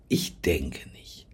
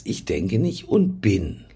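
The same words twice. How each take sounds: First: Slow hushed whisper of Ich denke nicht; whispered softly and slowly. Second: Said in the usual way. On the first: Shown as a demonstration. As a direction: breathe the words, no voice.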